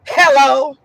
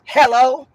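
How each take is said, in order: First: It is said with a rude attitude. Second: It is said with a rude attitude.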